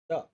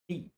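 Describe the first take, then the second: First: It uses the pronunciation for before a consonant. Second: It uses the pronunciation for before a vowel. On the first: "the before consonant" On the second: "D before vowel"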